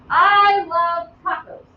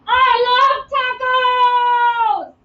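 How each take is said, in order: First: Slow, even statement read; declarative example. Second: Sung out, much higher, louder and very slow; exclaimed. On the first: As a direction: say it as a plain fact, slowly. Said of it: "That's a declarative sentence". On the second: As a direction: belt "I love tacos!" with big joy. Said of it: "end in an exclamation point". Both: Shown as a demonstration.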